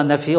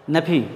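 First: নেফি with an f sound and no w at the end; teacher showing নেফি as NEF-ee, no w; nephew said as nefi. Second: Said in the usual way. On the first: Shown as a demonstration. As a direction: say নেফি, ending on a clean ee. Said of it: "এখানে উচ্চারণটা হবে নেফি, ডব্লিউ উচ্চারণটা হবে না". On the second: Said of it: "এখানে উচ্চারণটা হবে নেফি".

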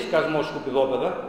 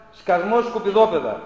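First: Said in the usual way. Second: A retold shout, louder, with "Σκασμός" lifted at the end; mock witch yell. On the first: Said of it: "δάσκαλος ... δεν λέει". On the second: Speaker quoting the schoolbook witch at carol singers, mock yell. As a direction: bark "Σκασμός, σκουπιδόπεδα" like the witch on her balcony. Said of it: "βγαίνει στο μπαλκόνι και φωνάζει".

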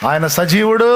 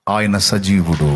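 First: Louder, ringing repeat of the declaration; rousing proclamation. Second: Low, slow, weighty proclamation; solemn declaration. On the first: Preacher repeats his answer to the congregation, loud and rousing. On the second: Preacher answers his own question to the congregation, solemn and low. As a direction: state it slowly and deep, with weight. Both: Real, not acted.

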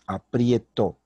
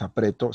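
First: "aprieto" with IE glide, falling at the end; IE diphthong. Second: "apreto" with a single E, rising at the end; plain E. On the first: Teacher correcting the verb, "aprieto" with clear IE. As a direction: put an I glide before the E in "aprieto". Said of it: "sino es aprieto". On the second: Teacher citing the incorrect form, "apreto" with plain E. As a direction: say "apreto" without an I glide. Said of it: "es incorrecto decir apreto". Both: Shown as a demonstration.

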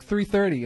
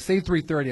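First: "Three thirty" with a lisp on the th; "Three thirty" said with the tongue pushed forward, lisping; lisp demo. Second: Said in the usual way. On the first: Shown as a demonstration. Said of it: "say T H with the lisp". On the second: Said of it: "people at school would be like".

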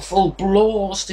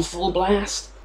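First: English long "ah" in "blast"; mock-English "blast" with a drawn-out broad vowel; English pronunciation. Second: Said in the usual way. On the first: Shown as a demonstration. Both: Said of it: "if you want to be English about it".

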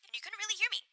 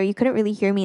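First: Thin, quiet high pass filtered voice; heavily filtered voice. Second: Said in the usual way. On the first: Real, not acted. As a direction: sound far away and filtered. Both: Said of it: "so I was sounding like I was really filtered".

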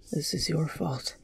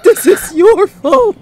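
First: Very soft, hushed blame; dazed, barely audible accusation; muttered. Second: Very high, loud cracking yell; anguished, furious cry. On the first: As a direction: mutter it under your breath. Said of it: "Kon muttered". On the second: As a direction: let the shout break on the blame. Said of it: "His voice cracked". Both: Acted.

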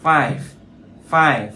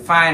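First: "five" closed on a breath of V; final airy V. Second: "file" as fai, final V dropped; learner's mistaken "five" without its ending; missing final V. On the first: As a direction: finish "five" with teeth on lip, just air. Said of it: "Âm V đây nó chỉ gió thôi". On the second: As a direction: leave "file" open-ended, no V. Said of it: "thiếu chữ V". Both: Shown as a demonstration.

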